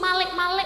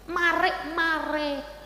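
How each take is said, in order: First: The middle consonant is said as an L. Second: The middle consonant is said as an R. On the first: A child who cannot say R sang it. The speaker calls it wrong. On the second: The lyric is sung as intended. The speaker calls it right.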